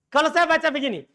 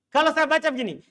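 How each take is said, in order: The two takes are said the same way.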